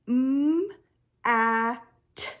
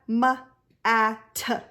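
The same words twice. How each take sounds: First: The consonants are said without any added vowel. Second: The consonants are said with an added 'uh' vowel. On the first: The speaker calls it right. "you're saying m, a, t" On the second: The speaker calls it wrong. "adding that schwa sound at the end"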